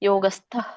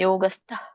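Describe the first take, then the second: The two takes are said the same way.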